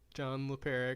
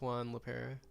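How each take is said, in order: First: The first name starts with a J sound. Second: The first name starts with a W sound. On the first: The speaker calls it wrong. "that definitely is is pronounced John" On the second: The speaker calls it right. "I imagine it's Juan LaPera"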